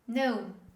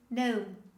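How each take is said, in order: The two takes are said the same way.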